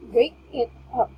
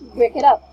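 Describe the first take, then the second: First: The phrase is said at a normal pace. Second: The phrase is rushed and run together quickly. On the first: The speaker calls it right. "The normal way to say is" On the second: The speaker calls it wrong. "please do not uh, pronounce it fastly"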